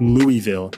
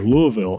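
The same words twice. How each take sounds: First: The name is said the non-local way. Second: The name is said the local Kentucky way. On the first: The speaker calls it wrong. "it's not Louisville. They all got mad at me for saying that" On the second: The speaker calls it right. "I learned how to say that in Kentucky"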